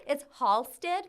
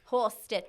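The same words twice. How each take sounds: First: Halsted stressed with a rising Chicago vowel; Chicago pronunciation. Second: Halsted with a flat Chicago ah; Chicago pronunciation. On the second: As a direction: say Halsted like a South Side local. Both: Shown as a demonstration. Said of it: "It's an ah, not an aw".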